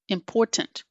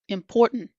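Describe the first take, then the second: First: The T is fully and strongly released. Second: The T is stopped in the throat. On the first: The speaker calls it wrong. "someone saying the T so strongly ... it just doesn't sound right" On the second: The speaker calls it right. "That's the glottal T"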